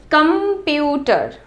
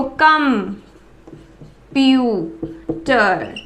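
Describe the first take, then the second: First: "computer" as one slow, connected word; slow word demo. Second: "कम, प्यू, टर" with long pauses between; syllable by syllable. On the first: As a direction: say "computer" slowly without long breaks. ("Computer" धीरे, एक शब्द में) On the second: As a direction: break it into three: कम... प्यू... टर. ("कम, प्यू, टर" एक-एक हिस्सा रुककर) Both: Shown as a demonstration. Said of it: "बोल के देखो".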